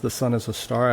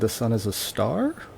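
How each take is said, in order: First: It is said as a statement, falling at the end. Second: It is said as a question, rising at the end. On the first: It is claimed to be true. "I've asserted that is true" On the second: It asks whether it is true. "but I have said it as a question"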